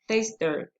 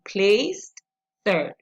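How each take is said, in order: First: The ending sound of the first word is dropped. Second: The ending sound of the first word is heard. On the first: "You're not listening to the E D sound, you're not pronouncing it" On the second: "if you were pronouncing it"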